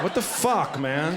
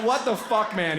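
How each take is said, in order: First: Muttered self-pity. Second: Mock outraged whine. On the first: Retold or imitated. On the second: Retelling the rejected guy's line, hammed up and whiny. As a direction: ham up his wounded outrage. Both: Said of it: "he said to himself was so good".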